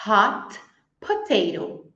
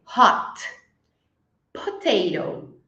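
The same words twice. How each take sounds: First: Hot potato with the T swallowed into the P; linked hot potato, T assimilated to P; T dropped into P. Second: Hot potato with a clear T, slow and separated; each word separate, T clear. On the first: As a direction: glide hot straight into potato, no T. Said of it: "eu falo hot potato". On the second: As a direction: say hot and potato apart, T fully released. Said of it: "Se eu falar separadinho". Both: Shown as a demonstration.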